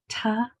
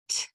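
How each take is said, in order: First: The consonant is followed by a voiced vowel. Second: The consonant is only a puff of air. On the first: The speaker calls it wrong. "the sound for T is not ta" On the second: The speaker calls it right. "it's just t"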